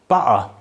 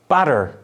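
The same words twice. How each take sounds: First: The T is a glottal stop. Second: The T is a quick tap. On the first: "in estuary English, it will be pronounced butter" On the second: "it can be pronounced as a tap, as in butter"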